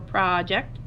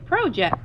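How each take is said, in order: First: The stress is on the first syllable. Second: The stress is on the second syllable. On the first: "If we emphasize the pra instead of ject" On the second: "or if we say project"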